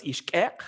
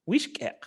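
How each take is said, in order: First: "ishkek" with no tone on the first syllable; underlying toneless form. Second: "wishkek" with "wish" pitched high and stressed; tone on first syllable. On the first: Linguist giving the bare word for fingernail, no tone. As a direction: say "ishkek" with stress left on final "kek". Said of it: "underlyingly, uh, uh, fingernail is ishkek". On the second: Linguist showing the possessed form of fingernail, high first syllable. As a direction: punch "wish" high, let "kek" drop. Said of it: "with tone on the first syllable". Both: Shown as a demonstration.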